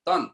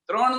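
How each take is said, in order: First: The word begins with a plain 't'. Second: The word begins with a 'tr' cluster. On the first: "તન એટલે હણ ને બદલે ન બોલે" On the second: "ઈ ત્રણ નો બોલે"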